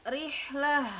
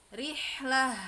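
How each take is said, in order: The two takes are said the same way.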